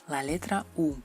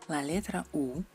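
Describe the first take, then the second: No difference in how they are said.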